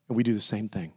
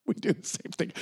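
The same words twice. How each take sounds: First: Said in the usual way. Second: Soft whisper, almost no voice; hushed whispered repeat; whispered confession. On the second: Real, not acted. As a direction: let it drop to a breath.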